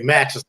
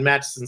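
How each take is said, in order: First: The name is said longer, like Matchison. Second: The name is said short, like Matson. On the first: The speaker calls it right. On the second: The speaker calls it wrong.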